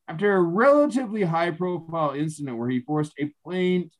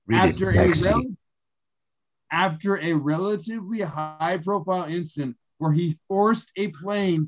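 First: The sentence is read at a normal pace. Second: The sentence is read slowly and deliberately.

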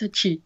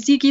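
First: The middle consonant is a ch sound. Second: The middle consonant is a hard k sound. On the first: The speaker calls it right. "yeah, it's Zichi" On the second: The speaker calls it wrong. "I've been calling you Ziki this whole time"

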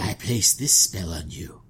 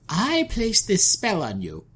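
First: It is said in an attempted sultry voice. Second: It is said in a crone-like voice.

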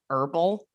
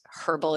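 First: The initial h sound is dropped entirely. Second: The initial h sound is clearly pronounced. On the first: The speaker calls it wrong. "What happened, America? What'd you do to that H?" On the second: The speaker calls it right. "I'm just going to say it in Australian because herbal is so much better"

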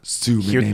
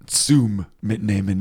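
First: No M sound ends the first word. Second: An M sound ends the first word. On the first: The speaker calls it wrong. "we lost the M in there" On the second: The speaker calls it right. "the correct version should be"

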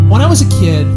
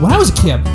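First: It is said in a flat, low-energy way. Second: It is said in a lively, upbeat way.

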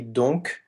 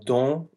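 First: The word ends with a clear k sound. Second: The word ends without any k sound. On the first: "donc with the K pronounced" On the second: "don with the C"

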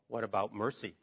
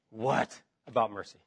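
First: The voice sounds earnest, stressing 'mercy'. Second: The voice sounds grumpy and irritated. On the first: The speaker is turning to mercy in trouble. "Or the way I want it to be read is, ... Put the emphasis on the last word" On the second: The speaker is complaining. "If you're kind of a grumpy pants, you can say"

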